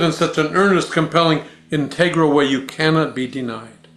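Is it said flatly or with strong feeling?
strong feeling. It is said with strong, earnest feeling.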